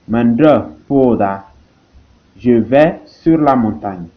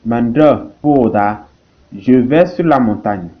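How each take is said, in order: Both takes have the same delivery.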